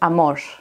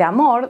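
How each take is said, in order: First: The r sounds close to an sh sound. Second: The r is a plain Spanish r sound. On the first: "a veces la pronuncian como una sh" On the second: "en vez de decir amor"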